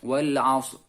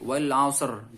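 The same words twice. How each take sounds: First: The final r is only faintly hinted. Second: The final r is fully and clearly pronounced. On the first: The speaker calls it right. "cukup sebagai isyarat" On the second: The speaker calls it wrong. "tidak dilafatkan dengan sempurna. Jadi tidak seperti"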